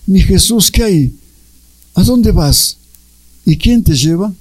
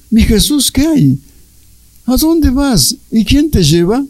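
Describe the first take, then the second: First: Said in the usual way. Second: Pleading questions. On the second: Retold or imitated. Luisa questions Jesus, quoted.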